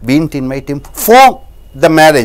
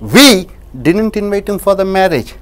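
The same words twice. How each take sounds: First: The word 'for' carries the stress. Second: The word 'we' carries the stress. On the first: We invited him for another reason. "வேறு ஒரு காரணத்திற்காக" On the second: Someone else invited him. "யாரோ ஒருத்தர் அழைத்தார்"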